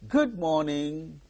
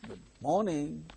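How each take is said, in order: First: The word good carries the stress. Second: The word morning carries the stress. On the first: The speaker calls it wrong. "We should not say good morning" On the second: The speaker calls it right. "It is good morning"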